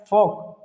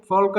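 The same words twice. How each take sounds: First: फॉक with no L before K; silent L. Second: फॉल्क with L heard before K; wrong sounded L. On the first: Teacher models the correct word, फॉक with silent L. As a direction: say फॉक leaving L out. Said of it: "फॉक पढ़ेंगे". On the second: Teacher forbidding the mistake, फॉल्क with L. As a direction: pronounce the L in फॉल्क. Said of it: "इसको फॉल्क नहीं पढ़ेंगे". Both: Shown as a demonstration.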